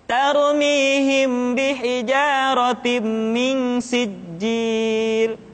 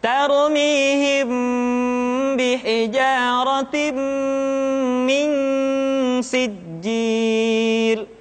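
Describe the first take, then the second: First: The nasal sounds are rushed and cut short. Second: The nasal sounds are held long and unhurried. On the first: The speaker calls it wrong. "Kita tidak boleh membaca seperti ini" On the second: The speaker calls it right. "tahan suaranya, tidak boleh tergesa-gesa. Contoh"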